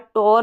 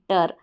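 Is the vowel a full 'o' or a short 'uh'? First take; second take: full o; short uh. First: The vowel is a full 'o' sound. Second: The vowel is a short 'uh' sound. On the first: The speaker calls it wrong. "टोर नहीं" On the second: The speaker calls it right.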